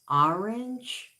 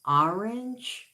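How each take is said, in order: First: It is said as two syllables, 'or-ange'. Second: The same.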